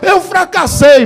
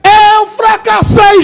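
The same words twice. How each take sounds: First: It is said at normal volume. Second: It is shouted loudly.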